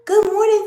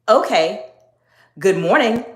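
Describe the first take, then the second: First: It is lighter, softer and casual. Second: It is lower, firm and direct. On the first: The speaker is simply being polite. The speaker calls it wrong. "It was not a" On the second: The speaker is in control and not intimidated. The speaker calls it right. "I said it in that exact tone"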